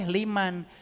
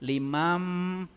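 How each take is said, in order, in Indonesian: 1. Bunyi n diucapkan terpisah sebelum m. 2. Bunyi n menyatu dengan m yang ditahan. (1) "nggak boleh liman" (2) "Limam guna. Dua harokat"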